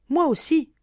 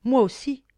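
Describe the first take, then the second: First: The second moi aussi, pitched much higher and louder, moi stressed; heartfelt cry rising. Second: The first moi aussi, higher and louder, bursting out; heartfelt cry. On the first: Sister repeating her longing, an even higher cry. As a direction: push moi aussi up to a near wail. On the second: Sister bursting out her own longing, loud cry. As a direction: let moi aussi escape like a held-back cry. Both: A narrator's reading. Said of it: "le cri de tout son être".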